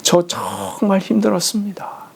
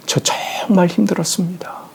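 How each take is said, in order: First: Breathless whisper, leaning on 저; the son whispers it once more to his father; whispered monologue. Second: Breathless whisper, worn out, on 정말; a son whispering to his late father, exhausted; whispered monologue. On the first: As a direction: repeat 저 정말 힘들었습니다 in a whisper with the weight on 저. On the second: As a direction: confess 저 정말 힘들었습니다 in a breaking whisper, stress on 정말. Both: Retold or imitated. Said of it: "독백하시지".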